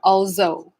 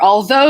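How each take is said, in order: First: The middle consonant is a z sound. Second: The middle consonant is a voiced th sound.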